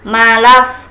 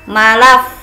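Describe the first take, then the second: The two takes are said the same way.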